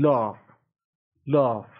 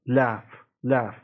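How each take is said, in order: First: British "Laugh" with an open back AH; British broad-A "Laugh"; British pronunciation. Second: American "Laugh" with a front A, as in cat; American short-A "Laugh"; American pronunciation. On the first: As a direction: say "Laugh" as lahf, British style. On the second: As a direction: say "Laugh" as laff, American style. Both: Shown as a demonstration.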